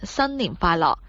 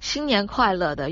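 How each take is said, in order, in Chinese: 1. 这是用粤语发音的。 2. 这是用普通话发音的。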